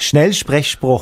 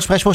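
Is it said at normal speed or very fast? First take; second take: normal speed; very fast. First: It is said at a normal speed. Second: It is said very fast.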